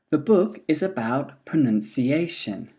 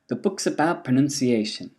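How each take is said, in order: First: The word 'is' is said in full. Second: The word 'is' is contracted onto 'book'.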